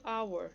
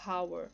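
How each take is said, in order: First: HOUR said as "our"; silent H. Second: HOUR said as "how-er" with an audible H; wrongly sounded H. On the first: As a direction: start HOUR straight on the vowel. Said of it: "essa palavra aqui eu leio". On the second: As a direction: breathe out a clear H at the start of HOUR. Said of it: "eu não falo hour". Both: Shown as a demonstration.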